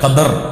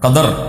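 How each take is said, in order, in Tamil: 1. இரண்டாவது எழுத்தில் 'a' உயிர் உள்ளது. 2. இரண்டாவது எழுத்தில் 'a' உயிர் உள்ளது.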